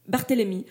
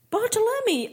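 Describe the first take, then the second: First: Said in the usual way. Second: Barthélemy mangled as pahtlami, high; English-accented name. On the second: Acted. Englishman repeats the mayor's name, English accent. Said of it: "au fort accent anglais".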